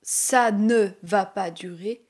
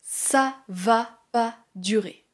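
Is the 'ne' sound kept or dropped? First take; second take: kept; dropped. First: The 'ne' is pronounced before 'va'. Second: The 'ne' is dropped before 'va'. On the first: "Au lieu de dire" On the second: "on va supprimer le « ne »"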